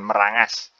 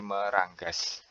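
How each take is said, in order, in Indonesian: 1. Ng diucapkan tanpa bunyi g keras setelahnya. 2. Ng diikuti bunyi g keras. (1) "bukan merangas" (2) "tapi meranggas"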